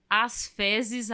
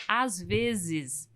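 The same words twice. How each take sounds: First: "As fezes" said with an F opening the second word; F in place of V. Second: Said in the usual way. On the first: Shown as a demonstration. Quoting the attendant's written mistake, F for V. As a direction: say "fezes" with F, not V. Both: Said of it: "ela trocou F pelo V".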